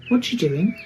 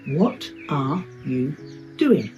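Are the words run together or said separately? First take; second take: run together; separately. First: The words blur together into one quick sound. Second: Each word is said slowly and clearly. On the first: "as I say it as a native speaker" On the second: "if I say this slowly and clearly"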